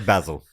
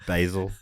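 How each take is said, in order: First: It is pronounced the local way. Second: It is pronounced the American way. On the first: "over here" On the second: "as the Americans say"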